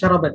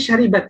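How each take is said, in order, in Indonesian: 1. Vokal kedua adalah bunyi 'a'. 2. Vokal kedua adalah bunyi 'i'. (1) "bukan syarabat ya" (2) "seharusnya syaribat ya"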